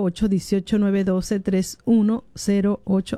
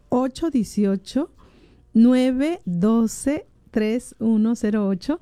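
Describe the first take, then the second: First: The number is said fast. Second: The number is said slowly.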